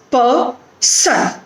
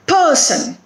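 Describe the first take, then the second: First: "per-son" split into two separate beats; "per... son", two distinct pieces; broken into syllables. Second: PER-son, higher on PER, falling on son; "person" as one word, strong first syllable; stress on first syllable. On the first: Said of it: "it is made up of two syllables". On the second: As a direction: hit PER in "person", let son drop. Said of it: "It is on the first syllable". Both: Shown as a demonstration.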